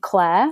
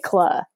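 First: It is said in a neutral, general accent. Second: It is said in a northern English accent. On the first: "instead of saying the name Claire, like Claire Danes" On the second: "if I was talking to my whole family... I'd say Claire"

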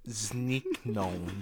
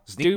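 First: The word is said slowly. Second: The word is said at normal speed.

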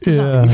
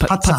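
First: The double Z is said as a plain z sound. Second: The double Z is said as a ts sound. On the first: This is the way the family says it. "we don't pronounce it that way" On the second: This is the way it is said in Italy. "with a double Z, you got to put the T in there, like pizza"

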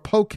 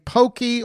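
First: The word is said with one syllable. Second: The word is said with two syllables. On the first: "I say poke" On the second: "Some people say pokey"

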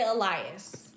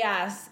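First: The name is said with an American pronunciation. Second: The name is said with a Spanish pronunciation. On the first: "American people will say Elias" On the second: "so Elias is, like, the Spanish"

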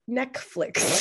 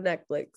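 First: The word is pronounced like 'neck flicks'. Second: The word is pronounced in the usual way.

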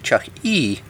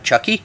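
First: The name is enunciated as two distinct parts. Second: The name is run together into one word. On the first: It names the family restaurant mascot. The speaker calls it right. "if you say it correctly" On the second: It sounds like the horror-movie doll. The speaker calls it wrong. "if you say the live Chucky"

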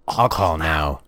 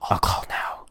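First: It is said in a normal voice. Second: It is said in a whisper.

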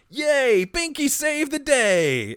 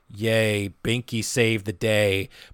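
First: It is said cheerfully, in Binky's voice. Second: It is said flatly, without enthusiasm.

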